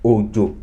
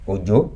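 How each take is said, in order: First: Both syllables are on the same low pitch. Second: The second syllable is higher than the first. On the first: It means rain. "the tone on it is do do" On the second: It is a name. "That is do mi"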